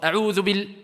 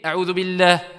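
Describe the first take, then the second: First: The vowel after the L is cut short. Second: The vowel after the L is held long. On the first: The speaker calls it wrong. "Tu as enlevé ici une lettre" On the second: The speaker calls it right. "On doit voir ici cette prolongation"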